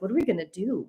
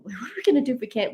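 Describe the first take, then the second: First: Said in the usual way. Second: Fast, laughing panic; nervous laugh. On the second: Retold or imitated. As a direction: laugh through the nerves, quickly. Panicking in the cold.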